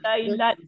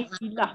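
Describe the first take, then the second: First: The word ends with a t sound. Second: The word ends with an h sound. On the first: The speaker calls it wrong. "Kita tak kata lailat. Bukan ya" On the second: The speaker calls it right. "wakaf dengan bunyi ha"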